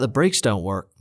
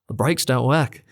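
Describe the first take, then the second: First: It is said in the speaker's ordinary accent. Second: It is said in an Australian accent.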